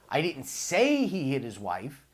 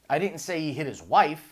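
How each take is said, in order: First: The word "say" carries the stress. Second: The word "wife" carries the stress.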